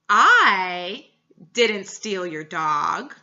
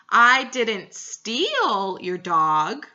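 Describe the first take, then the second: First: The word "I" carries the stress. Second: The word "steal" carries the stress. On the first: Someone else did it. "I emphasized the I" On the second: It was only borrowed. "emphasizing the word steal"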